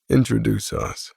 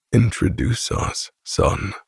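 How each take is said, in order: First: Said in the usual way. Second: Flat, level, emotionless repeat; Grant's monotone. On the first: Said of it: "repeats in the same monotone voice". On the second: Acted. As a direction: say it dead flat, no inflection. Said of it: "Grant repeats in the same monotone voice".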